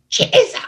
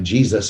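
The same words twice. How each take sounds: First: The word is screamed loudly. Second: The word is said calmly and quietly.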